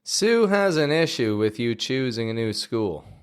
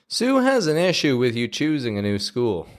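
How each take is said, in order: First: The sentence is spoken at a slower pace. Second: The sentence is spoken at a fast pace.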